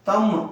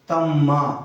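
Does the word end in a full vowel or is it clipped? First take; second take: clipped; full vowel. First: The word is cut short without a final vowel. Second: The word ends with a full final vowel. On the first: The speaker calls it wrong. "तम नहीं बोलेंगे इसको" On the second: The speaker calls it right. "तम्मा पूरा स्पष्ट उच्चारण करेंगे"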